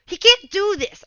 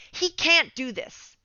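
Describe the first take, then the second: First: Loud, sharp "He can't do this" with a stress on "can't"; loud, punchy imitation of a pro player's complaint; RTZ's outburst. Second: Slowed, deliberate "He can't do this"; slow, measured. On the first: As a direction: blurt "He can't do this" loudly, as if stunned by a bad play. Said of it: "when you hear him be like". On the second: Retold or imitated. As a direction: say "He can't do this" slowly, as a calm assessment. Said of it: "fourteen K M M R player say".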